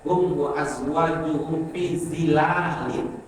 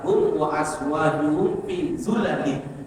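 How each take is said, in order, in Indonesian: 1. Kata terakhir dimulai dengan suku kata zi. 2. Kata terakhir dimulai dengan suku kata zu. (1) "Ada yang membaca" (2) "dengan membaca dhamma urudha min ghairi alif"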